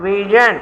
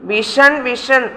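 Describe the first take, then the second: First: "വിഷൻ" with a zh sound; correct pronunciation. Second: "വിഷൻ" with a sh sound; wrong pronunciation. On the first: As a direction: say "വിഷൻ" as vi-zhun. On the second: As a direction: say "വിഷൻ" as vi-shun. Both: Shown as a demonstration. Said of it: "അങ്ങനെയല്ല".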